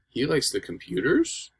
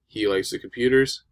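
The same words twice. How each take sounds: First: The voice rises at the end. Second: The voice falls at the end. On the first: It is a question. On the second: It is a statement.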